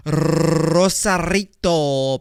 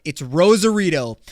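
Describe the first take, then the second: First: "Rosarito" drawn out slowly with a rolled Spanish r and crisp t. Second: Said in the usual way. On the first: Shown as a demonstration. Says place name, then rolls it.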